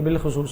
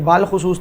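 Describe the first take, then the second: First: The first word has a short 'i' vowel. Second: The first word has a long 'aa' vowel. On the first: The speaker calls it right. "ये बिल खुसूस है" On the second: The speaker calls it wrong. "ये बाल खुसूस नहीं है"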